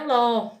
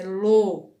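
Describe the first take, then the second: First: The vowel is open. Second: The vowel is closed. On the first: The speaker calls it wrong. "Não é ló" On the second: The speaker calls it right. "é lô. É o som da vogal fechado"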